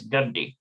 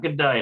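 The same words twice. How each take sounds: First: Gadi ending in an "ee" sound; corrected pronunciation Gadi. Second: Gadai ending in an "eye" sound; mispronounced Gadai. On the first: Hebrew learner correcting the name after checking it, corrected pronunciation Gadi. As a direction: say Gadi with second syllable like "dee". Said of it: "it's Gadi". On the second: Hebrew learner showing the mistaken reading, mispronounced Gadai. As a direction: say Gadai with second syllable rhyming with "die". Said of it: "It's not Gadai". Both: Shown as a demonstration.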